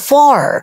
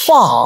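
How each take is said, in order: First: It ends with a clear r sound. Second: It ends on the vowel with no r sound. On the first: "ফার American" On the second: "ফা British"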